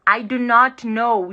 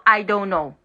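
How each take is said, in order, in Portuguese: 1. A negativa é dita por extenso, três palavras separadas. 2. A negativa é contraída em uma palavra curta. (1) "a forma como gramatical" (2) "Juntando tudo, contraindo tudo"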